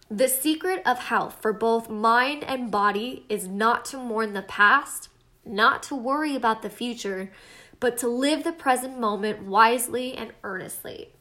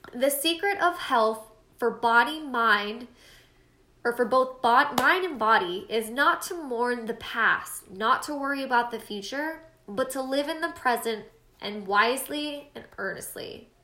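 First: Said in the usual way. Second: Halting read that trips over "bod-" and restarts; stumbling quote reading. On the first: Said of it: "That sounded a lot better". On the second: Shown as a demonstration. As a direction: read the quote unsure, tripping over words. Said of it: "Sorry, guys, I totally butchered that".

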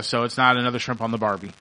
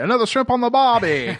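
First: Said in the usual way. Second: High, hammed-up Australian accent, pushed louder; a horrible mock Australian twang on the Barbie; bad Australian accent. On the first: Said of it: "I think that's how they say it". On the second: Host jokes to his guest in a horrible Australian accent. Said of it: "my horrible accent".

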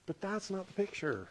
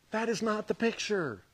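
First: Said in the usual way. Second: "not" hit and held, words spelled out as "That is not"; stress on not. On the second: Shown as a demonstration. Preacher correcting the congregation, stress on "not". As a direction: lean hard on "not".

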